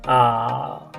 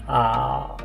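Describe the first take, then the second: Both takes have the same delivery.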